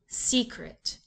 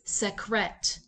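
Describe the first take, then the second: First: The stress is on the first syllable. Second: The stress is on the second syllable. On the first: The speaker calls it right. "place the accent back on the first syllable" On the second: The speaker calls it wrong. "Let's switch the accent"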